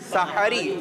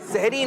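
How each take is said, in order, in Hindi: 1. h के बाद एक छोटा a स्वर सुनाई देता है। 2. h और r के बीच कोई स्वर सुनाई नहीं देता। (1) "सीन पर भी जबर है, हा पर भी जबर है" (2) "सहरी नहीं"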